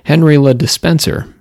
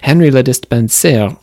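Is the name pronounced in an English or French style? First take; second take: English; French. First: The name is pronounced in an English style. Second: The name is pronounced in a French style. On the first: "so it could very well just be Henry Le Despenser" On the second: "that would be a French pronunciation"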